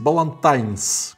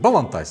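First: An n sound comes before the final s. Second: No n sound comes before the final s. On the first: "надо произносить Балантайнс" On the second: "всегда все говорят Балантайс"

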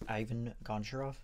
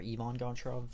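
First: The name is said with English pronunciation. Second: The name is said with Russian pronunciation.

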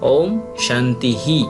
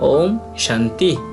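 First: The last word ends with an added 'hi' syllable. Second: The last word ends plainly without an added syllable. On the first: The final sign comes at the end of the sentence. "শেষেরটা হচ্ছে বাক্যের শেষে বিসর্গ, অতএব এখানে শান্তি নয়" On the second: The final sign falls within the sentence. "মাঝেরটাও শান্তি"

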